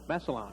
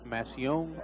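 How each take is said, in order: First: It is pronounced in a plain English style. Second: It is pronounced in a French style, like papillon. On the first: The speaker calls it right. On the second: The speaker calls it wrong.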